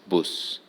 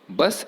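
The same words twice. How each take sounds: First: It is said in a northern English regional accent. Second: It is said in the standard accepted accent. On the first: "many British people living in the northern part of the country pronounce bus as bus" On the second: "bus is the accepted pronunciation"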